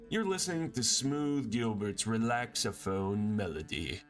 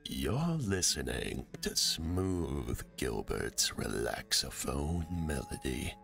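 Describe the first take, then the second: First: It is read in a plain voice. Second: It is said in a soothing voice.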